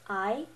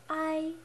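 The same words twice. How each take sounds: First: The pitch rises like a question. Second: The pitch stays level and flat. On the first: "pretend like you're asking a question" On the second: "on the first tone"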